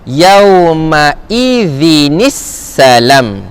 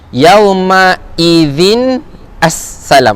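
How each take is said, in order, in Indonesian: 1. Dua kata terakhir disambung dengan vokal i penyambung. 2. Dua kata terakhir diucapkan terpisah, tanpa vokal penyambung.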